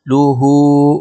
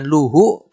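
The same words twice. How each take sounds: First: The final vowel is long, two beats. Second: The final vowel is short, one beat. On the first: The speaker calls it right. "dibaca panjang dua ketukan" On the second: The speaker calls it wrong. "bukan luhu"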